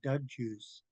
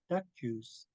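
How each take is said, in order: First: The first word ends with a g sound. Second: The first word ends with a k sound. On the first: The speaker calls it wrong. "will pronounce my name wrong and they'll call me Doug Juice" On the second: The speaker calls it right. "it's Duck Juice"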